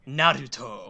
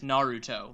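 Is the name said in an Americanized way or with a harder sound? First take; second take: harder; Americanized. First: The name is said with a harder consonant sound. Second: The name is said with soft American sounds. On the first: It sets the speaker apart as a distinct character. "like he adds that hard sound to it" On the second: This is how most English speakers say it. "kind of like the Americanized Naruto, like most of us would say"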